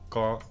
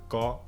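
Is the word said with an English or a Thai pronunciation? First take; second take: Thai; Thai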